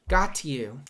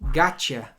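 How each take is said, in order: First: The t and y sounds stay separate. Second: The t and y sounds blend into ch. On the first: The speaker calls it wrong. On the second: The speaker calls it right.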